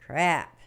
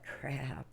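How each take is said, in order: First: Second crap, sharply louder; louder curse. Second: Low, soft muttered crap; muttered curse. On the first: Papers on the ground, blurting crap louder. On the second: Dropping papers, muttering crap softly. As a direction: curse under your breath. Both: Retold or imitated. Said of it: "and you're like".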